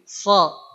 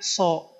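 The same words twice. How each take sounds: First: The vowel is said with the mouth open. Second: The vowel is rounded, lips pushed forward. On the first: The speaker calls it right. "tapi so" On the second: The speaker calls it wrong. "jadi bukan so"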